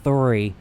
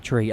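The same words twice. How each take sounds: First: Three with a light, near silent th. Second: Tree with a hard t, no th. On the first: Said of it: "almost like a silent H". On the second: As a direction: say tree with a t sound. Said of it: "not tree". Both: Shown as a demonstration.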